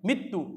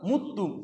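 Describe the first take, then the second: First: The first vowel is an 'i' sound. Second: The first vowel is a 'u' sound. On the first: The verb follows the pattern with 'a' in the present tense. "ওই মকসুরাইন হওয়ার কারণে মৃত্যু" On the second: The verb follows the pattern with 'u' in the present tense. "আর যদি নাসরাইন থেকে হয় মুত্তু"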